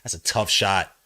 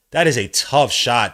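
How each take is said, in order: First: Said in the usual way. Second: Slow, louder stress on is; emphatic repeat. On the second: Real, not acted. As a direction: lean on is in That is a tough shot.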